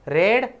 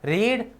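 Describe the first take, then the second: First: The vowel is short, like 'red'. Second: The vowel is long, like 'reed'. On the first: It is the past form of the verb. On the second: It is the present form of the verb.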